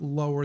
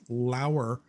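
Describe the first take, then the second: First: The first vowel sounds like the word 'low'. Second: The first vowel sounds like the word 'how'. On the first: The speaker calls it wrong. "that's not lower" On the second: The speaker calls it right. "that's lower trail... a lawyer by the name of Lauer"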